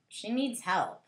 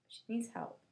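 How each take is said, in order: First: Said in the usual way. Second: Much softer, muttered aside; quiet aside. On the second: Shown as a demonstration. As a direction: drop to a soft aside.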